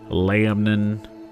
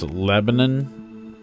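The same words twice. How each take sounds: First: It is said with a Tennessee local pronunciation. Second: It is said with a standard pronunciation.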